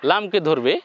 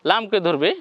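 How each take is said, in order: Both takes have the same delivery.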